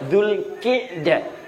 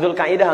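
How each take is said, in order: First: The vowel after q is 'i'. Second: The vowel after q is 'ai'. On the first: The speaker calls it right. "Yang benar Zulqi'dah" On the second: The speaker calls it wrong. "dua-duanya salah"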